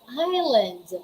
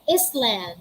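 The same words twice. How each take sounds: First: The s sound is left out. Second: The s sound is pronounced. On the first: The speaker calls it right. "We say island" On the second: The speaker calls it wrong. "We don't say island"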